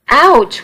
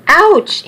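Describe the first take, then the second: First: Higher yelp of pain from a cane blow; first startled cry when the cane hits; pained ouch. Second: Much higher yelp of pain, pushed up further; second cry, pitch leaps as the blow lands; sharper pained ouch. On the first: Charlie struck by a cane. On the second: Charlie struck again by cane. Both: Acted.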